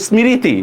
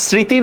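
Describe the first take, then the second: First: "স্মৃতি" as smi-ri-ti, ম fully voiced; sounded-out mo-phola. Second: "স্মৃতি" as sri-ti, ম left silent; silent mo-phola. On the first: Teacher quizzes learners on the choice, "স্মৃতি" with ম sounded. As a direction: pronounce "স্মৃতি" wrongly with an m, smi-ri-ti. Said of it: "এটার উচ্চারণ কি হবে?". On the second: Teacher quizzes learners on the choice, "স্মৃতি" with silent ম. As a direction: pronounce "স্মৃতি" sri-ti, without any m. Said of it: "এগুলার কোনো উচ্চারণ হয় না". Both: Shown as a demonstration.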